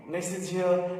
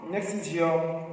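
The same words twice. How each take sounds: The two takes are said the same way.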